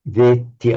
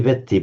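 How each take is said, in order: First: The E vowel is long. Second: The E vowel is short. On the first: The speaker calls it right. "a long E followed by a double T" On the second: The speaker calls it wrong. "So you don't say veti"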